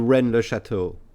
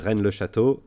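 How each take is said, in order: First: The name is said with an English accent. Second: The name is said with a French accent. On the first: It sounds less exotic to listeners. "I'm trying to put an English accent in it" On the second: It is how a native would say it. "like a good old Frenchman"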